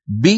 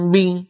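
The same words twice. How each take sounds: First: ب said crisply, with no nasal hum; a clean lip release on ب; ba without ghunna. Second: ب said with a nasal hum through it; wrong nasal ba. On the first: Teacher shows students the correct ba with no nasal sound. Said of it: "هذه الباء لا غنة فيها". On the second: Teacher shows students a mistaken ba carrying ghunna. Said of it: "هل سمعتم باء معها غنة". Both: Shown as a demonstration.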